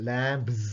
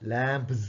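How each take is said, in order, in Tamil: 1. வார்த்தை ரீங்கரிக்கும் z ஒலியில் முடிகிறது. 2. வார்த்தை ரீங்கரிக்கும் z ஒலியில் முடிகிறது.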